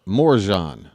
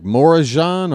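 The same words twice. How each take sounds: First: Morjan in two beats, 'more-ZHAHN'; two syllables. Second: Morajan in three beats, 'more-uh-ZHAHN'; three syllables. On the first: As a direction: run Morjan together with no middle uh. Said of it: "Is it two syllables?". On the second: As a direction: put an uh in the middle of Morajan. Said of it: "is it three syllables?". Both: Shown as a demonstration.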